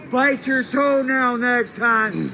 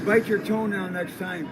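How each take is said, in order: First: Louder, higher, slow stretched taunt; drawn-out yell. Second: Loud mocking shout; loud taunt. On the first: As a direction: bellow it, dragging each word. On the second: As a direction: jeer after him. Taunting the departing man. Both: Real, not acted.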